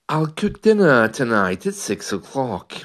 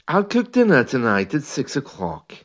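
Both takes have the same delivery.

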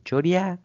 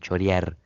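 First: The final r sound is dropped entirely. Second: The final r sound is clearly pronounced. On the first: This is how people say it locally. "acá es choreá" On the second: This is not how people say it locally. "La R que se la use Magoya acá"

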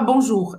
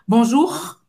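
First: The R sound is soft and natural. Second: The R sound is strongly forced and exaggerated. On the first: "Eu não falava bonjour" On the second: "eu forçava tanto o R que até os franceses davam um sorriso"

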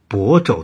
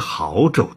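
First: The first syllable is pronounced bo. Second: The first syllable is pronounced hao. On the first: This is the local, correct reading of the city name. The speaker calls it right. "卑职是亳州的" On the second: This is the governor's misreading of the city name. The speaker calls it wrong. "不是亳州的"

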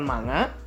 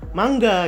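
First: The middle is a plain ng with no hard g. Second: The middle ng is followed by a hard g. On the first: This is the common local way of saying it. The speaker calls it wrong. "Indonesia ngomongnya manga" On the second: This is the original way of saying it. The speaker calls it right. "yang benernya itu harusnya diucapin mangga"

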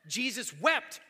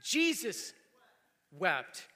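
First: The stress is on wept. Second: The stress is on Jesus.

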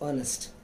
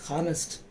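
First: The word starts with a vowel sound. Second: The word starts with an h sound. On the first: The speaker calls it right. "it is honest" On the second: The speaker calls it wrong. "We don't say honest"

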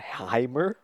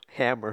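First: The word is said with an odd, affected vowel. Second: The word is said with a plain, normal vowel. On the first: The speaker calls it wrong. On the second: The speaker calls it right.

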